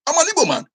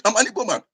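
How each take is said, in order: First: Much higher, proud cry; proud exclamation. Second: Said in the usual way. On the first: Real, not acted. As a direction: burst out with pride, pitched high. Proud declaration of identity.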